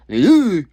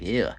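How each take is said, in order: First: Loud, high, hammed-up ew; over-the-top mock disgust; dramatic disgust. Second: Said in the usual way. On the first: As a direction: blurt it out with theatrical revulsion. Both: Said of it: "that was a little dramatic".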